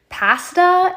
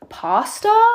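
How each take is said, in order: First: It is said the Canadian way. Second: It is said the American way.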